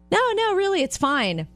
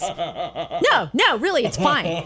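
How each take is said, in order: First: It is said in a gentle, kind tone. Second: It is said in a sharp, irritated tone.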